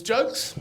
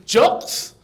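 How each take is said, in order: First: Said in the usual way. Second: JOCKS as an Italian says "jokes", short O; imitating Italian accent. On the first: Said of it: "I think he means jokes". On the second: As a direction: mimic the Italian, raised JOCKS. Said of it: "In his accent, he said".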